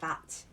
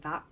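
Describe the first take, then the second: First: The final T sound is clearly pronounced. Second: The final T sound is dropped. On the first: "instead of saying that" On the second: "dropping a T uh, off the end of certain words"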